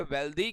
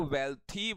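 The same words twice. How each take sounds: First: "वेल्दी" said with voiced द, not थ; wrong d pronunciation. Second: "वेल्थी" said with aspirated थ, not द; correct th pronunciation. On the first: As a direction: soften th into a d in "वेल्दी". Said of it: "लेकिन वो गलत है". ("वेल्दी" को द की आवाज़ से बोलें) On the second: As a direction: stress the th syllable in "वेल्थी". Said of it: "इसको वेल्थी बोलना है". ("वेल्थी" को थ की आवाज़ से बोलें) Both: Shown as a demonstration.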